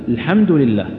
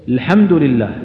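The two takes are said the same way.

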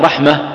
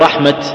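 First: The word ends with an h sound. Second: The word ends with a t sound. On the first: The word is written with a closed taa. "وقف عليها بالهاء" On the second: The word is written with an open taa. "وقف عليها بالتاء"

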